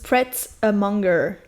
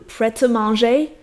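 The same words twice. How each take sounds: First: It is pronounced the English way. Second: It is pronounced the French way. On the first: "en anglais, du coup, ... ils disent" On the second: "ils disent pas"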